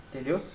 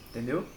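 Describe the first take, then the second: Both takes have the same delivery.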